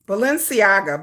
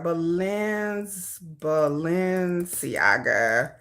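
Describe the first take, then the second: First: Said in the usual way. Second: "Balenciaga" stretched out very slowly, lower; slow sounding-out. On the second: Real, not acted. Typing a search she can't spell, "Balenciaga" slowly sounded out. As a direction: draw out each syllable of "Balenciaga".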